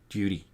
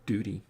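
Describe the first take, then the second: First: It is said in an Australian accent. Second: It is said in an American accent. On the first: "T's become D's in Australian" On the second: "we sure as shit don't say duty"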